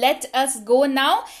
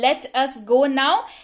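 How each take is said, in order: First: Let us is said as two full words. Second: Let us is said as two full words.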